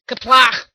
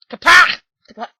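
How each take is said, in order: First: First Kaplach louder, a harsh K; Klingon shout. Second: Kaplach again, higher and much louder, rising; harsh Klingon shout. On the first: Host struggling with a Klingon word. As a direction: try out Kaplach with a hard start. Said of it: "and he's like". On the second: Host straining at a Klingon word, louder. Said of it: "I can't do it anymore, my throat hurts". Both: Retold or imitated.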